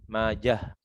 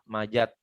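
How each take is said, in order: First: The name ends with a soft h sound. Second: The name ends with a t sound. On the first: The speaker calls it right. "Dibaca dengan hak sukun" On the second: The speaker calls it wrong. "Kadang-kadang juga dibaca dengan tak"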